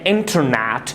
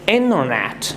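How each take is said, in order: First: The T after the N is clearly pronounced. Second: The T after the N is silent. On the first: The speaker calls it wrong. "Do not say internet" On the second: The speaker calls it right. "So you'll say internet"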